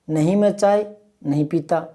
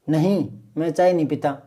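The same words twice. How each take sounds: First: All the words run together without a pause. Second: There is a short pause after the first word.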